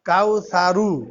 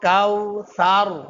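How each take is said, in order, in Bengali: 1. শব্দটির শেষে একটি অতিরিক্ত u স্বরধ্বনি যুক্ত হয়েছে। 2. শব্দটি ব্যঞ্জনবর্ণ r দিয়ে শেষ হয়েছে। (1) "হওয়ার কথা কাউ সারু" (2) "লাস্টের অক্ষরে মনে মনে জজম ধরে পড়তে হয় যে কাউ সার"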